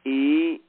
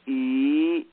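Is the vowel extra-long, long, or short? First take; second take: short; long. First: The vowel is held very briefly. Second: The vowel is held about twice as long.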